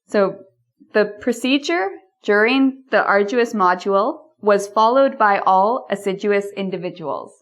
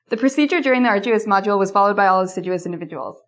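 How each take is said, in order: First: The sentence is spoken at a slower pace. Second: The sentence is spoken at the fastest pace.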